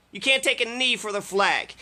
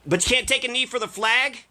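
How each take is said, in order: First: Can't stressed, falling to a flat close; flat statement. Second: Rising disbelief on take, ending up; mock-baffled question; incredulous question. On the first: Acted. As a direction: state it as a bitter fact. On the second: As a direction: ask it like it's absurd.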